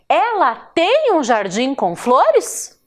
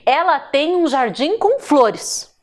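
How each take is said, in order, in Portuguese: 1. É dita com entonação de pergunta. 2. É dita com entonação de afirmação. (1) "Vejam que a entonação mudou, porque eu estou fazendo uma pergunta" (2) "Ponto final. Acabou. Ela tem, é uma afirmação"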